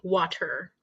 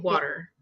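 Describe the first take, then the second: First: The T is hard, with a strong R ending. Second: The T is soft, without a strong R ending. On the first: "because our T is hard, harder. I'm saying like water" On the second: "You say"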